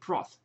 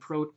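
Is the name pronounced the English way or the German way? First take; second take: English; German. First: The name is pronounced the English way. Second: The name is pronounced the German way. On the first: "only if he's British, he would be named Proth" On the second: "I pronounce the name Prout the German way"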